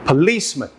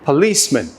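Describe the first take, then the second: First: The stress is on the second syllable. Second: The stress is on the second syllable.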